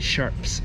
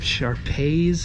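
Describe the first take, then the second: First: It sounds like the plain word sharps. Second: It sounds like the dog breed shar-pei. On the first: "Or is it Sharps?" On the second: "Like the dogs, like two Sharpei dogs?"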